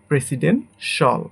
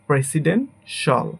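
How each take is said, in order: Both takes have the same delivery.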